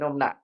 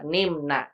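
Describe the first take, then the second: First: The first vowel is a rounded u. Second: The first vowel is a front i. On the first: The speaker calls it wrong. "Salah nih numna" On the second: The speaker calls it right. "Dia ikutin bab dua"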